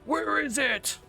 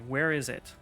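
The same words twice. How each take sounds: First: It is said in a gruff Batman voice. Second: It is said in his normal voice.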